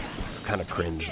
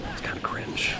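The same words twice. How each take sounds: First: Said in the usual way. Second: Breathy unvoiced whisper; hushed gossip whisper; whispered aside. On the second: Mock whisper about Wario.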